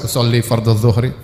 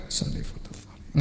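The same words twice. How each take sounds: First: Fully voiced, audible recitation; recited out loud. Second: Barely audible, voiceless whisper; whispered recitation. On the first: Preacher showing what everyone would overhear, recited aloud. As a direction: say it aloud in a lower pitch, for all to hear. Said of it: "orang semua dengar". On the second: Preacher showing how to say the intention for oneself, whispered. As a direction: murmur the intention under your breath, slowly. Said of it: "Nggak usah keras". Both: Shown as a demonstration.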